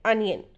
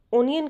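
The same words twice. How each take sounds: First: "अनियन" starting with a short uh, UN-yun; correct pronunciation. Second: "ओनियन" starting with a long o, OH-ni-yan; common pronunciation. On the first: Teacher giving learners the correct pronunciation, "अनियन" with an initial uh. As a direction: say "अनियन" with "uh" at the front, falling. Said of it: "correct pronunciation है". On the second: Teacher quoting how many people say it, "ओनियन" with an initial oh. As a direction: say "ओनियन" with "oh" at the front. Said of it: "correct pronunciation है अनियन". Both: Shown as a demonstration.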